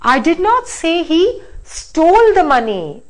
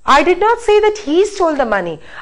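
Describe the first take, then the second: First: The stress falls on the word stole. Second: The stress falls on the word he. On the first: The money was borrowed, not stolen. "Now let me stress on this" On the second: Somebody else did the stealing. "I said that somebody else stole, not he"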